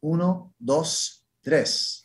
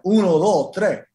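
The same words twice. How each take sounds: First: It is said in a standard classroom accent. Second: It is said in a Dominican accent.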